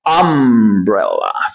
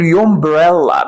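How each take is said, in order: First: The word begins directly with a vowel sound. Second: The word begins with a 'y' glide sound. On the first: The speaker calls it right. "بنقول umbrella" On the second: The speaker calls it wrong. "احنا مش بنقول يومبريلا"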